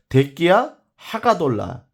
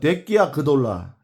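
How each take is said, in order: First: Every syllable of the phrase is said separately. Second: The syllables are linked and partly dropped.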